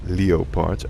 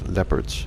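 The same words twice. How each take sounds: First: Leopards is said with a foreign, non-English pronunciation. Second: Leopards is said with the usual English pronunciation. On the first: "that's the way we pronounce them in my country" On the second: "and not as"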